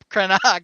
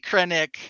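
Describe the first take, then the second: First: The name ends with an 'ack' sound. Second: The name ends with an 'ick' sound. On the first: This is the form used in the galactic core. "if you use the original Coruscanti pronunciation" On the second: This is the form used in the outer regions. "maybe Krennic in the outer rim"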